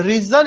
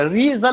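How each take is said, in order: First: Said in the usual way. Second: "रीजन" pulled apart as "री" and "जन"; split syllables. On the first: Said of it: "रीजन एक word होगा". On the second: Shown as a demonstration. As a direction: stretch "री" in "रीजन", then a separate "जन". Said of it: "रीजन अलग अलग नहीं". ("रीजन" को "री-जन" अलग-अलग करके)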